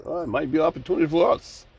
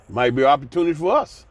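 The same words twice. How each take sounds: First: Quick, overly nice corporate voice; a mild mock of a smooth executive; real nice. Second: Brisk, polite corporate tone; a light imitation of a polite executive; mock professional. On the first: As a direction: say it sweetly, like a salesman. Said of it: "Say it real nice". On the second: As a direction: play it smooth and businesslike. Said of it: "You know how they talk. Be real professional".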